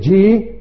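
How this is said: It is said as a challenging, questioning reaction. The listener questions what was just said. "this G in that accent, what are you saying now?"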